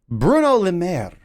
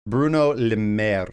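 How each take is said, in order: First: "Bruno Le Maire" high, then falling; flourished name. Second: "Bruno Le Maire" slow and lower; drawn-out name. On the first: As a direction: launch "Bruno" high and let "Le Maire" fall away. Name said two contrasting ways. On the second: Repeats the name lower and slower. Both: Pretend.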